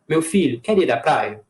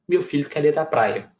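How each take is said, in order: First: It pauses after filho and ends as a question. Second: It runs straight through without a pause. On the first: It addresses the son and invites him. "colocar uma vírgula, tá? Depois de filho" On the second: It states something about the son. "essa frase vai virar uma frase declarativa"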